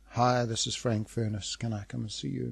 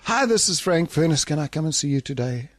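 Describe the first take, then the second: First: The caller sounds dejected and flat. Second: The caller sounds noticeably less enthusiastic.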